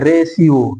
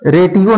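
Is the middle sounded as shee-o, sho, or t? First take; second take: shee-o; t. First: The middle is a sh sound before ee-o. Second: The middle is a t sound before ee-o. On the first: The speaker calls it right. "इसको बोलेंगे रेशियो" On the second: The speaker calls it wrong. "यहां पे रेटियो नहीं बोलेंगे"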